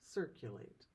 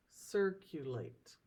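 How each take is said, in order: First: Said in the usual way. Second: Circulate broken slowly into syllables; cir, cu, late, spaced out slowly; syllables split. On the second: Shown as a demonstration. Teacher splits circulate for class, slowly syllable by syllable. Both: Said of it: "how we would split the syllables".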